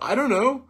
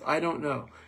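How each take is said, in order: First: The words run together into one reduced word. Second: The words are said as three separate words. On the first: "spelled I-D-U-N-N-O, pronounced by Americans" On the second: "but it's three words"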